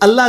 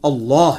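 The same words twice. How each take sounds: First: The l sound is light and thin. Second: The l sound is heavy and full. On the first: The speaker calls it wrong. "ये अल्लाह नहीं है लफ्ज" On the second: The speaker calls it right. "ये पुर करके पढ़ना है"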